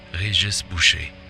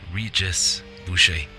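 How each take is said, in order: First: The name is pronounced the French way. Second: The name is pronounced the English way. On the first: This is the speaker's own way of saying the name. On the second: This is how English speakers say the name.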